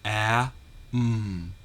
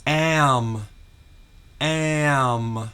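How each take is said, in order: First: "A, m" as apple vowel, pause, hummed m; segmented phonics "A, m", the A short as in apple; sounds separated. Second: "am" drawn out, apple vowel into held m; emphatic phonics "am", both sounds joined; dictated sound blend. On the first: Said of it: "two sounds". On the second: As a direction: dictate "am" clearly as one stretched blend. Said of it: "short A sound pronounced followed by a consonant". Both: Shown as a demonstration.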